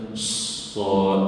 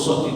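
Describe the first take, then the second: First: "sad" with a long hiss of air before the vowel; slow "sad", s sustained before the vowel; correct sad. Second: "sad" with a short s, vowel straight away; faulty letter name "sad", brief hiss; wrong sad. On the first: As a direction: let the air out first on sad. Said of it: "Angin itu dijelaskan keluar dulu". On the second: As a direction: say sad without leading air on the s. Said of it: "Huruf sad tidak dibaca sad". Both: Shown as a demonstration.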